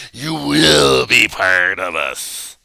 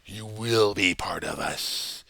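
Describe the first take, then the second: First: Slow, loud, threatening preacher; slow, loud, threatening preacher tirade; dramatic preacher rant. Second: Said in the usual way. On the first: Shown as a demonstration. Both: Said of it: "Notice the dramatic acting".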